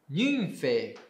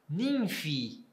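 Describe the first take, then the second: First: The word ends in an 'e' sound. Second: The word ends in an 'i' sound. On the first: This is the classical Greek pronunciation. "Nymphe, em grego clássico" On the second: This is the later Koine pronunciation. "vai ficar Nymphi"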